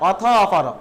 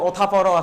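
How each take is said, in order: First: The words are said as two separate units. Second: The words are run together into one. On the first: "সন্ধি ভেঙে ভেঙে পড়লে বেশি সহজ মনে হয়" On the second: "এখানে হচ্ছে সন্ধিযুক্ত আছে"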